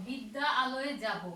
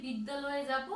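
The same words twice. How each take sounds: First: বিদ্যা and আলয়ে said as two separate words; বিদ্যা আলয়ে spelled out word by word; words kept apart. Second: বিদ্যালয়ে run together as one word; বিদ্যালয়ে spoken smoothly with no break; joined fast. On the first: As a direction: pronounce বিদ্যা then আলয়ে with their own vowels. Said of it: "মনোযোগ সহকারে শুনবে". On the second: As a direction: say বিদ্যালয়ে quickly, the two words fused. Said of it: "খুব দ্রুত যখন বলি". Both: Shown as a demonstration.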